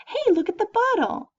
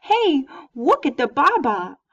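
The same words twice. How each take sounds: First: High sing-song, proper words; infant-directed speech. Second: Put-on slow, louder baby talk saying baba. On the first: Teacher shows infant-directed speech to students, high cooing. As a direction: point out the bottle in a high cooing voice. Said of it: "And that's infant-directed speech". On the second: Teacher contrasts baby talk with motherese, slow and cooing. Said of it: "if I'm talking baby talk". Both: Shown as a demonstration.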